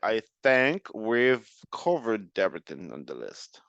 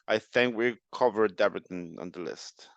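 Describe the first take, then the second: First: It is said slowly, with clear final sounds. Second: It is said quickly, with final sounds reduced. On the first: "So it would sound more like" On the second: "if I say it faster"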